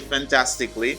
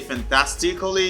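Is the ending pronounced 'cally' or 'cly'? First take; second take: cly; cally. First: The ending is one syllable, like 'cly'. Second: The ending is two syllables, like 'ca-lly'. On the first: The speaker calls it right. "you say fantastically" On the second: The speaker calls it wrong. "Don't say fantastically"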